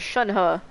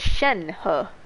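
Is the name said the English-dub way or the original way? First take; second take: original; English dub. First: The name is said the original way. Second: The name is said the English-dub way. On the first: "Shunhe is pronounced as Shunhe" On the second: "in the English dub, they pronounce it as Shenhe"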